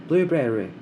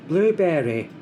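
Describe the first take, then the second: Both takes have the same delivery.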